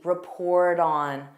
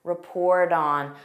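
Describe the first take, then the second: First: The t is a soft d sound. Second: The same.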